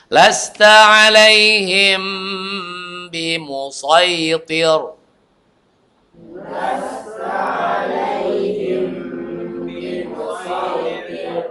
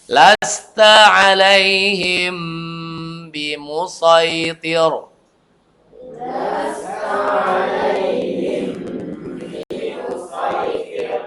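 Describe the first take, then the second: The two takes are said the same way.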